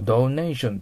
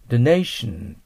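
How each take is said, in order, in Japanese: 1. 最初の母音は o から u へ滑る。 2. 最初の母音は短い普通の o だ。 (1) "ドネーションとは言わないと思います。" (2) "ドネーションとなると思います。"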